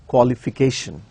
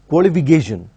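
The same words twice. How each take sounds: First: The K sound is a clear, unvoiced K. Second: The K sound is voiced like a G. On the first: The speaker calls it right. "No, it is education and qualification" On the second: The speaker calls it wrong. "the k sound is almost pronounced as g sound"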